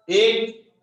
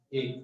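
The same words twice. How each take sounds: First: The word एक said loud and high, punched out; loud demo. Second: The word एक said softly, low in volume; soft demo. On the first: Teacher demonstrating loudness to students, loud एक. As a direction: call out एक loudly so the class hears the volume. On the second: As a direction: drop एक to a soft voice. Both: Shown as a demonstration. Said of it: "जैसे अभी मैं एक बात बोलता हूँ".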